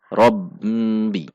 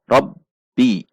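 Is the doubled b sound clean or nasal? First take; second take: nasal; clean. First: The doubled b has a nasal hum. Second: The doubled b is clean and firm. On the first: The speaker calls it wrong. "ada yang membaca masih ada dengung ke hidung" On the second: The speaker calls it right. "harus dibaca jelas, bersih, dan tegas"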